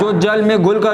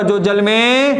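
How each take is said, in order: First: Said in the usual way. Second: Slow drawn-out prompt. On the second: Shown as a demonstration. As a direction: stretch जो जल में out slowly, waiting for the class to finish it. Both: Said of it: "teacher prompts class to complete".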